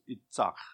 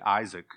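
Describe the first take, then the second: First: It is said with a Hebrew ts and guttural ending. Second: It is said with an American English pronunciation. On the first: "but it's Itzach" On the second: "You say Isaac in our American pronunciation"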